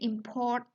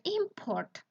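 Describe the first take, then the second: First: The stress is on the second syllable. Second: The stress is on the first syllable. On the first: It is used as a verb. "Our country import some noodles from Korea" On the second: It is used as a noun. "Or when we talk about noun"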